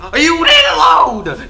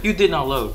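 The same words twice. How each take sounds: First: Slow, high, loud outburst; exasperated shout. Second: Said in the usual way. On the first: Real, not acted. Player yells at the game for not loading. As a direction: yell at the game.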